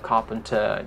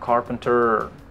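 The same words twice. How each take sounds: First: It is said in a British accent. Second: It is said in an American accent. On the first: "British bilang carpenter" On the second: "Amerika bilang carpenter"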